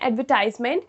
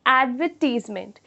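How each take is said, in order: First: It is said in an American accent. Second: It is said in an Indian accent. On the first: "वो American English का pronunciation है" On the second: "Indian English में इस तरीके से pronounce करेंगे"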